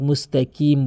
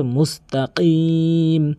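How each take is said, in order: First: "মুস্তাকিম" with a light front k; common mispronunciation. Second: "মুস্তাকিম" with q from the tongue root, long ee; correct deep qaf. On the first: Teacher mimicking most people's mistake, light k. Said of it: "কফের উচ্চারণকে কাফের উচ্চারণ". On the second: Teacher showing the qaf, slow careful recitation. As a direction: stretch "মুস্তাকিম" with a back-of-mouth q. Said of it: "কফের উচ্চারণ জিহ্বার গোড়া থেকে". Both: Shown as a demonstration.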